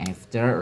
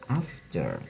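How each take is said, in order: First: It is said with an American accent. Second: It is said with a British accent. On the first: "Orang Amerika bilang after" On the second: "orang British bilang after"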